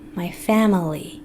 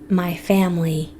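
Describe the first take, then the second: First: It is said slowly with the middle vowel heard. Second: It is said fast with the middle vowel dropped. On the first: "when you say it slowly, you'll hear that I in the middle" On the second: "when we're speaking fast. We just say my family"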